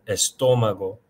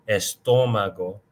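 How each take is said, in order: The two takes are said the same way.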